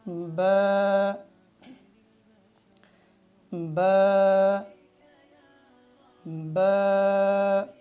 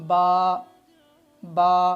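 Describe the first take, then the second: First: The lips close lightly and the mouth stays relaxed. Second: The mouth is opened too wide. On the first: The speaker calls it right. "बा को सही जो इसकी अदायगी है" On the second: The speaker calls it wrong. "मुंह को ज़्यादा खोल देते हैं"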